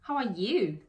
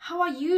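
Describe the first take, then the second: First: The word 'you' carries the stress. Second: The word 'you' is not stressed. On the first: It returns the question: and what about you? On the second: It asks how the listener is.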